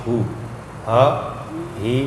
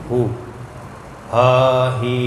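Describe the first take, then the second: No difference in how they are said.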